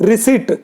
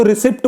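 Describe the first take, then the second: First: Receipt said ri-SEET with a silent p; receipt with the p kept silent, ending in -seet; correct pronunciation. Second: रिसिप्ट said ri-sipt with the p sounded; रिसिप्ट, the common mistake that ends in -sipt; wrong pronunciation. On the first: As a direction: say receipt as ri-seet, no p sound at all. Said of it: "Correct pronunciation is". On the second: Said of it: "कुछ लोग इसको रिसिप्ट बोल देते हैं". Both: Shown as a demonstration.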